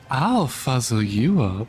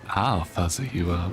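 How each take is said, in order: First: It is said at a higher pitch. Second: It is said at a lower pitch.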